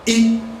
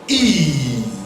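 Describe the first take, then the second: First: The vowel is short and quickly cut off. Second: The vowel is held long and drawn out. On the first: "under short vowel we talked about E" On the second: "when we want to prolong it by saying"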